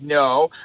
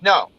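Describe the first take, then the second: First: The word is stretched out long. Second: The word is said short and quick. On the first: The person is lying. "They say no, like it's a long word" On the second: The person is telling the truth. "if they're not lying"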